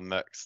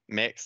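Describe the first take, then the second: First: The vowel sounds like the one in muck. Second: The vowel sounds like the one in mix. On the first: "like muck, but with an S" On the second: "like doing a cake mix"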